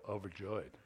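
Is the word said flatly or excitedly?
flatly. It is said flatly, without joy.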